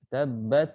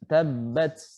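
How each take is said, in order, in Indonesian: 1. Huruf t terakhir berakhir dengan lepasan yang memantul. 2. Huruf t terakhir berakhir dengan bunyi desis s. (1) "Apalagi sampai memantul" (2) "ini udah huruf sin"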